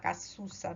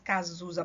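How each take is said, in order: First: The middle consonant is a hissing s sound. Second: The middle consonant is a buzzing z sound. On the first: This is how it is said in Spanish. "Em espanhol a gente fala Cazuza, ... porque não tem o som de Z em espanhol" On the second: This is how it is said in Portuguese. "mas em português Cazuza"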